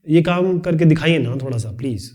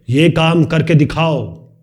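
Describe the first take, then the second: First: Polite request. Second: Slow, firm order, ये hit hard; commanding. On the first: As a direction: ask nicely, pleading a little. (विनती करते हुए, नरमी से) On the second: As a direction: command it like a boss. (आदेश देते हुए, सख़्ती से) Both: Shown as a demonstration. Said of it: "ये अलग तरीका हो गया".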